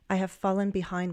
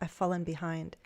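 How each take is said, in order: First: I have is said as two full words. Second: I have is contracted into one syllable.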